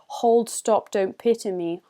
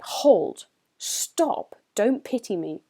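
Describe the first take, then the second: First: It is said flatly, without exclamatory force. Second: It is said forcefully, with exclamatory strength. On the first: The speaker sounds less independent and stubborn. "the way we would say this phrase if there wasn't punctuation" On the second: The speaker sounds independent, stubborn and strong. "the strength comes with the use of exclamation marks"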